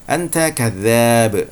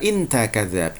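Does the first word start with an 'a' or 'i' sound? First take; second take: a sound; i sound. First: The first word begins with an 'a' vowel. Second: The first word begins with an 'i' vowel.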